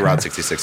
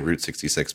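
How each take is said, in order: First: The word route rhymes with out. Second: The word route rhymes with boot. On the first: This is the speaker's own preferred way. The speaker calls it right. "I would say route 66" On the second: This is how most people say it. The speaker calls it wrong. "most people do say route 66, but I don't like that"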